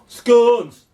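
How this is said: It is said in a northern English accent.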